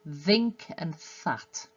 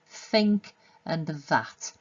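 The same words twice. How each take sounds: First: Think has voiced th; that has voiceless th. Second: Think has voiceless th; that has voiced th. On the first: The speaker calls it wrong. "put the voiced where the voiceless should be and the voiceless where the voice should be" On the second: The speaker calls it right. "th for think and th for that"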